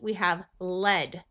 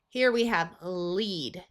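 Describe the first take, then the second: First: The vowel is a short E sound. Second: The vowel is a long E sound. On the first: It refers to a metal. "With a short E" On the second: It means to guide somebody. "This word lead means to guide somebody"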